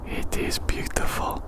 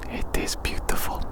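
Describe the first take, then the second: No difference in how they are said.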